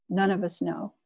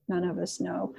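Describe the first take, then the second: First: Said in the usual way. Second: Softer, reflective repeat; quiet echo. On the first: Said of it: "repeated softer". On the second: Shown as a demonstration. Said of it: "echoed quietly".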